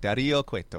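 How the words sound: The name is said with a Latino accent.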